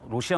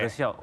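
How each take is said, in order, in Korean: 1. 첫 음절에 둥근 'o' 모음이 있어요. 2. 첫 음절에 열린 'eo' 모음이 있어요. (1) "로시아 놈들은 이렇게 얘기를 했거든요" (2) "북한에서는 러시아라고 안 하고"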